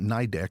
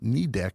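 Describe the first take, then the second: First: The first syllable sounds like 'nigh'. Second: The first syllable sounds like 'knee'. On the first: The speaker calls it wrong. "commonly call it NIDEC, which is wrong" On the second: The speaker calls it right. "we're saying knee deck"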